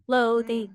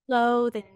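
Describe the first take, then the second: First: The stress is on the first syllable. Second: The same.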